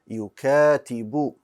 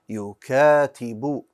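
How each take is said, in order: First: The word ends with a 'u' vowel. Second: The word ends with a 'u' vowel.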